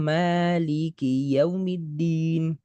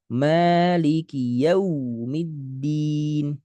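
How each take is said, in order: First: The sound is choppy and does not flow. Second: The sound flows but is pushed out forcefully. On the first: "kurang mengalir" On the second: "betul ngalir, cuman dihentak, nggak lembut"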